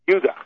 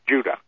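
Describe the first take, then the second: First: The word begins with a Y sound. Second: The word begins with a J sound. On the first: The speaker calls it right. "if we were to pronounce correctly, it would be Judah" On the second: The speaker calls it wrong. "instead of Judah"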